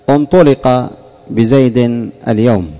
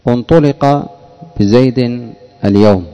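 First: The first word begins with a 'u' vowel. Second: The first word begins with a 'u' vowel.

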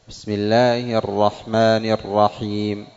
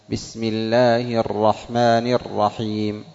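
The two takes are said the same way.

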